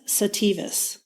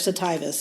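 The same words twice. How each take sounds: First: The i is not said like 'eye'. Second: The i is said like 'eye'.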